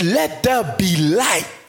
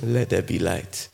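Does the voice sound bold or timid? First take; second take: bold; timid. First: It is said firmly and with authority. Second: It is said weakly and hesitantly. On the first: The speaker calls it right. "There was boldness in his voice" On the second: The speaker calls it wrong. "God didn't look at the world and say, oh"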